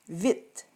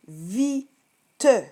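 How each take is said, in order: First: The final e is silent. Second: The final e is pronounced as a syllable. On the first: This is the everyday spoken form. "On le dit très rapidement" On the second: This form helps with spelling. "Lors de la dictée, je vais te dire vite"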